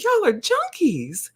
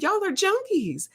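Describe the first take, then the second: First: High, slow, drawn-out teasing; teasing high call-out. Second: Very high drawn call-out; teasing high call-out. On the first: To the laughing nurse, a high slow teasing call-out. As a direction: tease her high and slow, pitched well up. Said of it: "she just started rolling and just cracking". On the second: Repeating the jab to the nurse, very high teasing. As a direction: squeal it up high in mock disbelief. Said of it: "I started laughing 'cause she knew it was true". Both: Retold or imitated.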